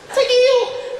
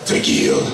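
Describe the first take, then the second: First: It is said in a high voice. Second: It is said in a deep voice.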